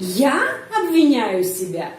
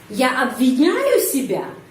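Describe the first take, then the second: First: The stress falls on the pronoun я. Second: The stress falls on the verb обвиняю. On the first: The question is who does the blaming. "Bisa intonasinya di sini pada kata pada subjek" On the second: The question is whether the blaming happens at all. "intonasi bisa pak di sini pada kata menyalahkan"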